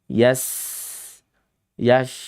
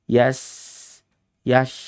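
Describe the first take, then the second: The two takes are said the same way.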